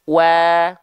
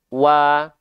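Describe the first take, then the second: First: It is said with lips spread in a smile. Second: It is said with an open mouth, no smile. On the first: "lafalkan sambil sedikit tersenyum ... Ditarik sedikit" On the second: "kalau dia dilafalkan hanya buka mulut saja, tanpa disertai dengan eh, sedikit senyum"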